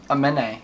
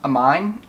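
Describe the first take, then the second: First: Aminé as uh-MEN-ay, three syllables; corrected pronunciation. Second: Amine said as "a mine", two syllables; mistaken pronunciation. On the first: Correcting how to pronounce his name, ending in A. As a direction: end "Aminé" on a clear "ay" sound. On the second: Unsure how to pronounce his name, mistaken pronunciation. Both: Shown as a demonstration. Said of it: "I don't know how to pronounce his name".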